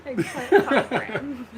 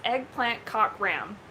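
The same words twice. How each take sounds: First: Slow and loud through laughter; laughing announcement. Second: Slow announcing. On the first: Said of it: "You're gonna say it right now". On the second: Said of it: "Simon Says". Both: Pretend.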